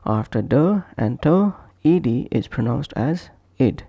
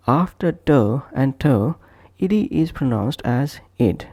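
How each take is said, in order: Both takes have the same delivery.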